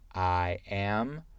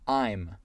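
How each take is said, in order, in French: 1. Deux mots séparés se disent en entier. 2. Les deux mots se fondent en une seule syllabe. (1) "c'est une contraction entre I et am" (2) "c'est une contraction entre I et am"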